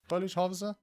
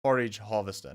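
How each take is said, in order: First: "Foliage harvester?" said FOH-lee-ij with a questioning rise on harvester; unsure rising "Foliage harvester?", like checking the word; wrong name, unsure. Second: "Forage harvester" said FOR-ij, firm and falling; corrected name. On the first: Farmer vlogger doubting the machine's name, "Foliage" said with an unsure rise. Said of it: "not foliage". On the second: Vlogger correcting himself on the harvester's name, "Forage" firm and falling. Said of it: "Forage harvester, not foliage". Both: Real, not acted.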